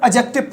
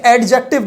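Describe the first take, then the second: First: एडजेक्टिव with the D silent, "a-jective". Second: एडजेक्टिव with the D pronounced, "ad-jective"; sounded D. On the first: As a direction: say एडजेक्टिव without sounding the D. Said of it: "ये silent होगा". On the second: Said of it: "नहीं पढ़ेंगे". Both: Shown as a demonstration.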